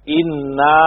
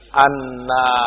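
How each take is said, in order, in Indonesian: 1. Kata itu dimulai dengan vokal 'i'. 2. Kata itu dimulai dengan vokal 'a'. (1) "mereka baca dengan kasrohnya hamzah" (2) "demikian membacanya dengan fathah alif"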